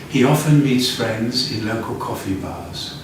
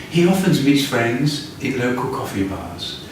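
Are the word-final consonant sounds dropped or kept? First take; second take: kept; kept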